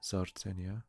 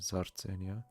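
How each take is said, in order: First: Swiss German accent, the R is rolled. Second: Swiss German accent, the R is rolled.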